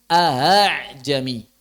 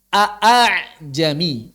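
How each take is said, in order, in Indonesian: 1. Hamzah glotis kedua dilunakkan menjadi bunyi berdesah. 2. Kedua hamzah glotis diucapkan penuh. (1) "Yang asalnya a'ajami menjadi ahajami" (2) "Itu aslinya"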